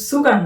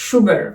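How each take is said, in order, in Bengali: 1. শব্দটি একটি সাধারণ s ধ্বনি দিয়ে শুরু হয়। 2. শব্দটি একটি শ্বাসযুক্ত sh ধ্বনি দিয়ে শুরু হয়। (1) "এটা উচ্চারণ কিন্তু সুগার না" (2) "এটা উচ্চারণ সুগার, কারণ এখানে সে স উচ্চারণ করবে"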